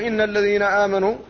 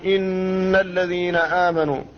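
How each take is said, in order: First: The nasal hum on the n is cut short. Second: The nasal hum on the n lasts two beats. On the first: The speaker calls it wrong. "لم يأتي بحق هذا الحرف وهو الغنة" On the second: The speaker calls it right. "تكون بمقدار حركتين"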